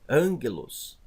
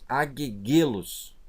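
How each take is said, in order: First: The first gamma is said as an N sound. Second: The double gamma is said as hard G sounds. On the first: The speaker calls it right. "a pronúncia correta é angelos" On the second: The speaker calls it wrong. "se eu ler assim, ... mas não é assim que se pronuncia"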